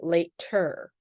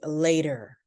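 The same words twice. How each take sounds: First: The T is a sharp, popped T sound. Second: The T is a soft, light D sound. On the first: The speaker calls it wrong. "we do not say" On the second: The speaker calls it right. "light D sound"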